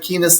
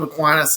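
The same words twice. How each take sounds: First: The name has a Spanish-style pronunciation. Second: The name has a plain English pronunciation. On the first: It is the name of the network. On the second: It is the name of the saint.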